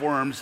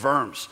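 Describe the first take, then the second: First: The word starts with a W sound. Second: The word starts with a V sound. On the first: The speaker calls it wrong. "it's not Diet of Worms" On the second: The speaker calls it right. "you pronounce the W as a V"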